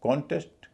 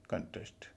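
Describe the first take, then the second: First: कॉन्टेस्ट said KON-test, first syllable stressed; KON-test with a rising first syllable. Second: कंटेस्ट said kən-TEST, first syllable weak; kən-TEST, unstressed first syllable; stress on second syllable. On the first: Teacher contrasts the noun with the verb, first syllable stressed. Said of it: "noun के रूप में बोलेंगे कॉन्टेस्ट". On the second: Teacher contrasts the verb with the noun, second syllable stressed. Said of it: "उच्चारण होगा कंटेस्ट". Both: Shown as a demonstration.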